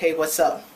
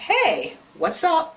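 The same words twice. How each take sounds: First: It is said in a flat, robotic way. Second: It is said in a natural, lively way.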